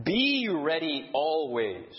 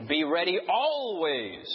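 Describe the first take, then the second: First: "Be ready always" slow with BE leaned on; emphasis on Be, slowly; stress on BE. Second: "Be ready always" with always held longest; emphasis moved to always; stress on ALWAYS. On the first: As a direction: hit the word Be, then ease off. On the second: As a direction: lean on always at the end. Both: Shown as a demonstration. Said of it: "when you emphasize each word".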